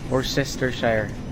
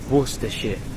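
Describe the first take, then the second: First: It is said with an American pronunciation. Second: It is said with a British pronunciation. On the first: "Siguro ganun yung American pronunciation" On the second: "sa U K siya. Yung lugar na yan"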